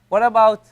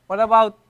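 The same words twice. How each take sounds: Both takes have the same delivery.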